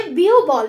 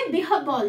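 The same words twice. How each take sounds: First: বিউবল said as "biubol", the common wrong way; wrong pronunciation. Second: বিহব্বল said "bihobbol", with a doubled b; correct pronunciation. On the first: Teacher shows students the wrong pronunciation "biubol". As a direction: say বিউবল the mistaken way, "bi-u-bol", a bit louder. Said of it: "বিউবল নয় কিন্তু". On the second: Teacher gives students the correct "bihobbol" pronunciation. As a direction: give the right form of বিহব্বল, "bi-hob-bol". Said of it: "এটা হবে বিহব্বল". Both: Shown as a demonstration.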